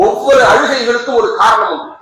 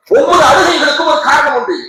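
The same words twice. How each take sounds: First: Said in the usual way. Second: ஒவ்வொரு hit high and loud; preacher raising his voice on the repeat; emphatic shout. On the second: Shown as a demonstration. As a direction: hammer the line home to the crowd. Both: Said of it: "repeated louder".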